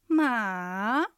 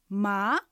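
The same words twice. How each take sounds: First: The pitch dips low, then rises. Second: The pitch rises from middle to high. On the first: It means horse. "がっかりするような下がって上がる音です。" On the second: It means hemp. "え、とこう聞き返すように上がる音です。"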